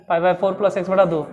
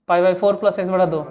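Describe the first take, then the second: Both takes have the same delivery.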